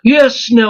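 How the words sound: It is spoken in a posh English accent. "that's posh English"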